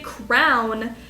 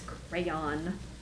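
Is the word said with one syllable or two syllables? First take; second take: one syllable; two syllables. First: The word is squeezed into one syllable. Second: The word is said with two syllables. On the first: The speaker calls it wrong. "people say crown" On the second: The speaker calls it right. "and it's crayon"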